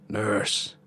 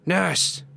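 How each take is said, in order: First: Drawn-out raspy call; lightly rasped summons to the nurse; dry rasp. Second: High, sharp call; demanding summons, pitched way up; sharper edge. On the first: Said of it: "a dry voice rasped". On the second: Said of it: "It had taken on a sharper edge". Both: A narrator's reading.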